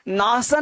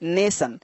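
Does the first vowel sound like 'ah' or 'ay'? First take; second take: ah; ay. First: The first vowel sounds like 'ah'. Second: The first vowel sounds like 'ay'. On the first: The speaker calls it wrong. "नासन नहीं" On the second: The speaker calls it right.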